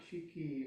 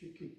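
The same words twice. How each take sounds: First: The final vowel is fully voiced and emphasized. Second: The final vowel is a light breathy outbreath. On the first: The speaker calls it wrong. "it's not an emphasized" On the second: The speaker calls it right. "It's more like an out breath"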